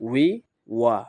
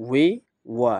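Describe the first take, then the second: Both takes have the same delivery.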